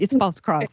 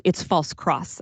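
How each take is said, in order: First: A hint of a Ukrainian priest's accent, imitating; light Ukrainian accent. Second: Said in the usual way. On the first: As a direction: lightly mimic a Ukrainian accent on "false cross". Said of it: "he's saying this in his Ukrainian accent". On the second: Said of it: "I'm thinking he's saying this in his Ukrainian accent".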